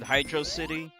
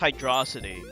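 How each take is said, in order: First: The name is said as two separate words. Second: The name is run together as one word. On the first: This is the way many other people say it. "A lot of people pronounce it" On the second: This is the speaker's own habitual way. "I always pronounce this"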